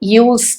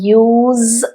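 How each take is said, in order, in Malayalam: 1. ഈ വാക്ക് ചീറുന്ന S ശബ്ദത്തിലാണ് അവസാനിക്കുന്നത്. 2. ഈ വാക്ക് മൂളുന്ന Z ശബ്ദത്തിലാണ് അവസാനിക്കുന്നത്. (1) "ഉപയോഗമാണെങ്കിൽ യൂസ് എന്ന് പറയും" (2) "വേർബായിട്ട് പറയുമ്പോ യൂസ് എന്ന് പറയണം. ആ സെഡ് ശബ്ദമില്ലേ, അത് വരണം"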